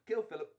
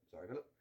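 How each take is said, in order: First: High, punchy British delivery; emphatic plan step. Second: Low, softer British aside; apologetic aside. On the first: Friend announcing the plan to kill stepfather, high and emphatic. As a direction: pitch it up brightly in a British accent. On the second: Friend apologising to stepfather mid-plan, low aside. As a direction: drop the pitch and tuck in the apology. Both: Acted.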